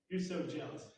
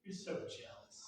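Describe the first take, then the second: First: Said in the usual way. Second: Breathy whisper, much softer, straight at them; whispered line. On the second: Shown as a demonstration. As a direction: whisper it to their face. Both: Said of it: "look them square in the face and go".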